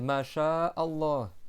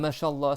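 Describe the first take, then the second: First: A short break separates 'sha'a' from 'Allah'. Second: The word runs straight into 'Allah' without a break. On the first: The speaker calls it right. "Tu coupes A" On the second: The speaker calls it wrong. "C'est pas Masha'Allah"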